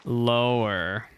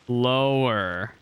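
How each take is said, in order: Both takes have the same delivery.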